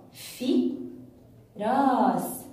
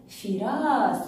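First: "في ... راس" with a clear pause after في; split into syllables. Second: Said in the usual way. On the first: Shown as a demonstration. Teacher showing pupils the kasra word, split into syllables. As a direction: break off after "في", then draw out "راس". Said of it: "هل جهزتم الكلمات للتقطيع". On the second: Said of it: "يوجد لدينا كلمة فراس".

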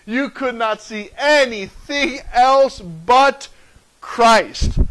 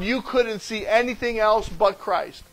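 First: "could not", "anything", "but" slow and punched, a pause before "Christ"; slow, forceful stress building to a set-apart "Christ"; emphatic restatement. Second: Said in the usual way. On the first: Real, not acted. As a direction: hammer out "anything else but", then land hard on "Christ". Emphatic restatement of the same line.

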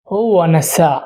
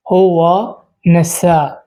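First: Said in the usual way. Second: হুয়া NASA said slowly with long vowels; slow teacher's repeat of হুয়া NASA; slow model pronunciation. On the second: Shown as a demonstration. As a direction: drag out হুয়া NASA so learners catch it. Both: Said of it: "তো প্রথম শব্দ হচ্ছে নাসিত".

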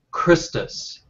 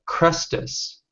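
First: "Christus" with first vowel as in "wrist"; I-vowel form. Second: "Chrestus" with first vowel as in "crest"; E-vowel variant. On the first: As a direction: say "Christus" as KRIS-tus. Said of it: "followers of one called Christus". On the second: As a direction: say "Chrestus" as KRES-tus. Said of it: "followers of one called Chrestus". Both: Shown as a demonstration.

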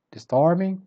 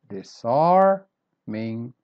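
First: "disarming" in one piece, high on "arm"; middle stress. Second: "disarming" very slow as dis, ARM, ing; middle stress, broken up. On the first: Teacher repeating word number eight, "disarming" whole with middle stress. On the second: Teacher showing the middle syllable, "disarming" in slow parts. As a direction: stretch the middle of "disarming", pausing before the end. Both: Shown as a demonstration. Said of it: "stress syllable is the one in the middle".

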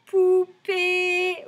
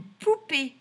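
First: Poupée high and loud, both syllables held; drawn-out syllables. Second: Said in the usual way. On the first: Shown as a demonstration. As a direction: sing out POU, PÉE slowly. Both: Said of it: "dans le deuxième".

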